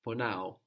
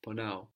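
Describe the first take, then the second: First: Ponao said slowly and clearly; slow model word. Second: Said in the usual way. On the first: Shown as a demonstration. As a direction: ponao spelled out syllable by syllable. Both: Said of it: "I hurt is ponao".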